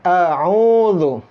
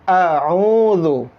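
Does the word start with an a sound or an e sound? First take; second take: a; a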